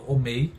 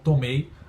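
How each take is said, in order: First: The opening t sound is left out. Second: The word begins with a t sound. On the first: "aí eu falo omei, isso é uma omissão" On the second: "como tomei"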